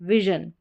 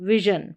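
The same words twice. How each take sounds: No difference in how they are said.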